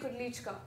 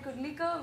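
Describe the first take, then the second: First: The name has a 'ch' sound before 'ka'. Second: The name ends in a plain 'lika' sound. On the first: The speaker calls it right. "this last name is pronounced as Kudlichka" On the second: The speaker calls it wrong. "We could say Kudlika"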